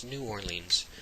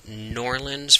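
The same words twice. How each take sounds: First: New Orleans with New pulled out clearly as its own word; stressed New. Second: Norlands as one run-together word, no clear N-O; mimicking how others say Norlands, squashed together; mock Norlands. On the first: Shown as a demonstration. Vlogger correcting viewers, New Orleans with stressed New. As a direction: pronounce New then Orleans, separate and firm. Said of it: "It's not just an N". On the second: Vlogger mimicking the locals' Norlands, clipped pronunciation. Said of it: "they call it Norlands for some reason".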